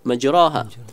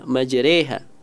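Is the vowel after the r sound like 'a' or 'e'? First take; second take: a; e. First: The vowel after r is an open 'a' sound. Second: The vowel after r leans toward 'e' (imalah). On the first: "ustaz tersebut membaca majroha" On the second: "maka dibaca imalah"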